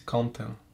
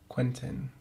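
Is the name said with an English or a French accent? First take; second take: French; English. First: The name is said with a French pronunciation. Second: The name is said with an English pronunciation.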